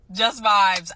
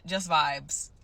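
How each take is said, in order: First: Louder, elated repeat; excited. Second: Said in the usual way. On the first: Real, not acted. Nurse quitting with nothing lined up, excited. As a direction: punch it out with excitement. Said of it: "You sound so excited".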